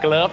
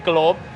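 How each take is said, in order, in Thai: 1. คำนี้ไม่ได้ออกเสียงเหมือน g บวก 'love' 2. คำนี้ออกเสียงเหมือน 'love' ที่เติม g เข้าไป (1) "ออกเสียง glove นะครับ" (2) "ไม่ใช่ glove เหมือน I love you แล้วก็ใส่ G"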